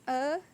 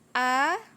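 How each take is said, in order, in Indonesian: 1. Vokalnya diucapkan dengan mulut setengah terbuka. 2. Vokalnya diucapkan dengan mulut terbuka penuh. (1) "bacaan yang salah atau mulutnya masih belum terbuka" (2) "jadi bacaannya A"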